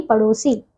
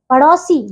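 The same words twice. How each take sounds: First: Said in the usual way. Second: पड़ोसी with an open "au", "padausi"; mispronounced पड़ोसी. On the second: Shown as a demonstration. Teacher shows pupils the error, "au" inside पड़ोसी. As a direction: widen the o of पड़ोसी to "au". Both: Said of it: "नहीं".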